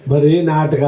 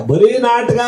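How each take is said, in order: First: Said in the usual way. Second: Mock-high "ಬರೀ ನಾಟಕ"; raised pitch. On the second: Shown as a demonstration. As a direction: say it higher, mocking. Repeats phrase in varied tunes.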